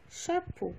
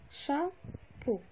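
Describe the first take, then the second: First: Said in the usual way. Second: "chapeau" in two separate syllables, pause before "peau"; split into syllables. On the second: Shown as a demonstration. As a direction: break "chapeau" after "cha" for a pupil to hear. (« chapeau » détaché en deux syllabes, cha, puis peau) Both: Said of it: "dans la deuxième syllabe".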